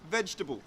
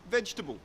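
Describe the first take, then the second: First: It is said with three syllables. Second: The same.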